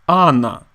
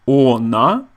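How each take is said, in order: First: The first vowel sounds like an A. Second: The first vowel sounds like a full O. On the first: This is how most Russians say it. "most Russian people pronounce the word as ana" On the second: This follows the written spelling. "the correct spelling is ona"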